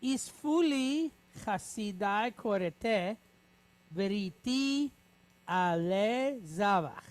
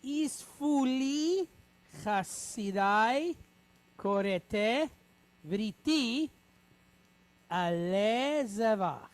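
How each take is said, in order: First: Slow, even recitation of the sentence; slow read-aloud. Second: Slow, word-by-word recitation; slow read-aloud. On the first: Teacher repeating the Hebrew sentence slowly for the class. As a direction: read it through once more, slowly. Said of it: "Let's do it one more time". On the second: Teacher reading the Hebrew sentence slowly with students. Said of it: "So let's read it together". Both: Shown as a demonstration.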